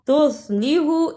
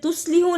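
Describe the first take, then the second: First: The 's' is a heavy, emphatic sound. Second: The 's' is a light, plain sound. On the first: The speaker calls it right. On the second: The speaker calls it wrong.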